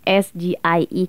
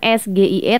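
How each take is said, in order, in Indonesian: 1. Huruf-hurufnya dibaca dengan nama huruf bahasa Inggris. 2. Huruf-hurufnya dibaca dengan nama huruf bahasa Indonesia. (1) "tapi S G I E karena itu singkatan bahasa Inggris"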